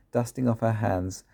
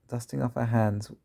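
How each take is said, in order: Both takes have the same delivery.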